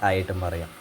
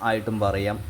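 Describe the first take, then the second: The two takes are said the same way.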